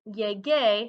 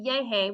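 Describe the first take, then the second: First: The middle consonant is a hard g sound. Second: The middle consonant is a breathy h sound. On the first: The speaker calls it right. "have that g sound" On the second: The speaker calls it wrong. "I get a h"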